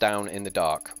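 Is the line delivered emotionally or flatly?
flatly. It is said flatly, with no emotion. The speaker calls it wrong. "I said that with no emotion whatsoever"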